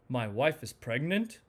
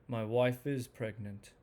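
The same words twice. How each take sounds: First: It sounds excited, with pitch going up then down. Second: It sounds mellow and calm, like a plain statement. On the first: The news is happy and exciting. "enthusiasm... it goes up and down" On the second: This is simply a fact being reported. "this very mellow statement, not strong, just mellow"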